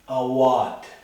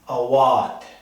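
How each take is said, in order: First: The stress is on the middle syllable. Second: The stress is on the middle syllable.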